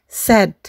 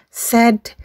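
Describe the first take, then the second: Both takes have the same delivery.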